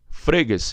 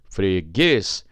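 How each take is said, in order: First: The stress is on the first syllable. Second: The stress is on the last syllable. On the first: The speaker calls it wrong. "regra base me jogou para dois" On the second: The speaker calls it right. "Você tem um freguês"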